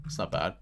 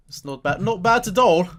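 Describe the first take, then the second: First: Said in the usual way. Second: High, loud, badly put-on foreign accent on It's not bad; terrible accent. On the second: Shown as a demonstration. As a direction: ham up a bad accent, climbing much higher and louder. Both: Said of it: "It's my terrible accent".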